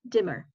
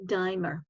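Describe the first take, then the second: First: The first vowel is a short 'i' sound. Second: The first vowel is a long 'eye' sound. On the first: "because you have two consonants, then it changes to E" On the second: "If you only had one consonant here, then the pronunciation would be dimer"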